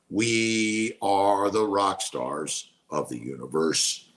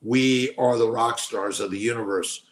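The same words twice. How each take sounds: First: Slow, drawn-out affirmation. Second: Said in the usual way. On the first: Real, not acted. Streamer repeating affirmation to viewers, slow and drawn out. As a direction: stretch out "We are", lower and slow.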